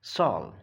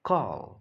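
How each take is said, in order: First: The word begins with an S sound. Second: The word begins with a K sound. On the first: The speaker calls it wrong. "It is not sol" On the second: The speaker calls it right.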